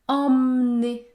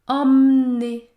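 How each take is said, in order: First: The first vowel is nasal; the middle e is silent. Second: The first vowel is nasal; the middle e is silent.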